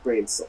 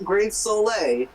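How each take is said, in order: First: The name ends without a final vowel sound. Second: The name ends with an added final vowel sound. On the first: The speaker calls it right. "introduces himself as Atlas Grave Grave Soul" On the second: The speaker calls it wrong. "Not Grave Soleil"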